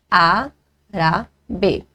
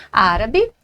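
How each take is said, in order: First: "árabe" broken slowly into á-ra-be with pauses; syllable by syllable. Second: Said in the usual way. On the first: Shown as a demonstration. Teacher detailing "árabe" for students, syllable by syllable. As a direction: sound out "árabe" in three separate beats, stress on the first. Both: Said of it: "proparoxítona".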